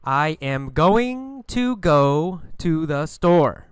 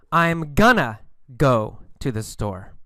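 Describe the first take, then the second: First: Slow, with "going to" fully sounded; textbook full form. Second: "going to" reduced to "gonna"; normal spoken form. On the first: Teacher shows the book form, "going to" in full. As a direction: say "I am going to" slowly, each word separate. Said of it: "In books, you learn "going to". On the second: Teacher shows normal speaking, "gonna" for going to. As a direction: run it together as "I'm gonna". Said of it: "in normal speaking, we use "gonna". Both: Shown as a demonstration.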